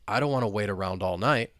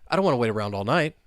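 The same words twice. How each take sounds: First: The sentence is spoken at a moderate speed. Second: The sentence is spoken very fast. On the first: "Now let's speed it up a little bit" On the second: "let's try and say it, well, super fast"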